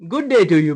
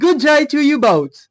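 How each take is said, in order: First: It is said in an ordinary, unaffected voice. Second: It is said in a posh American accent.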